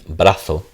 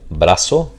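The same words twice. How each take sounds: First: The z is said the way Spain says it. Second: The z is said in a non-Spain way.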